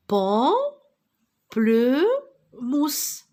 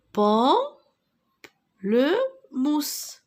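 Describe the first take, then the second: First: Pamplemousse stretched very slowly, syllable by syllable. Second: Pamplemousse again very slowly, rising, syllables apart; slow syllable repeat. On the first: Teacher clapping syllables for pupils, very slow. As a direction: pull Pamplemousse apart into its beats. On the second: Teacher repeating the word for pupils, very slow. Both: Shown as a demonstration. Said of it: "c'est un pamplemousse".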